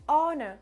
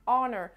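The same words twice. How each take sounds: First: It is said with a British accent, light ending. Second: It is said with an American accent, throaty ending.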